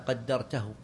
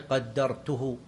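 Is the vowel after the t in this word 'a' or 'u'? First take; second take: a; u. First: The t carries the vowel a. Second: The t carries the vowel u. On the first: The speaker refers to what the listener did. "وإذا فسرت بإذا" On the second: The speaker refers to what they themselves did. "إذا فسرت بأي تضم التاء"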